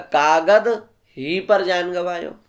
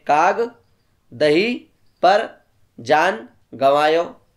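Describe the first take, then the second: First: The break falls after 'kaagad'. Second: The break falls after 'kaag'.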